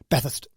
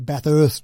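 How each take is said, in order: First: The U and the R are barely pronounced. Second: Every syllable is fully pronounced, with the R. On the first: This is how Australians locally say it. The speaker calls it right. "I don't think we really pronounce the U and the R" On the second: This is how some Victorians say it. The speaker calls it wrong. "They they don't get the pronunciation right"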